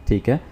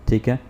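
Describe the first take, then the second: Both takes have the same delivery.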